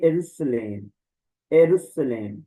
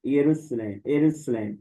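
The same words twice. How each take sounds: First: एरुसलेम starting on e, plain s; एरुसलेम, e not ya, s not sh; correct Greek form. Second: यरूशलेम with ya and sh; यरूशलेम, ya at the start, sh in the middle; common reading. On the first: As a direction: model the right form after the common one. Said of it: "लेकिन ये है ए". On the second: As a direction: show how some people read it. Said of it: "ऐसे ही पढ़ लेते हैं यरूशलेम". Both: Shown as a demonstration.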